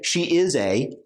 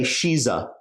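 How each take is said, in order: First: She and is are said as separate full words. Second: She and is are joined into one short syllable. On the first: The speaker calls it wrong. "We don't say she is a" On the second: The speaker calls it right. "most likely, we say she's a"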